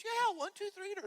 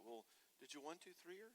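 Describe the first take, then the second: First: Much higher and louder, a mock shriek; wife snapping at her husband in a mock shriek. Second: Mild husband question. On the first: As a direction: shriek it back at him, fed up. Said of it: "She says". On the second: Retold or imitated. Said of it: "He's like".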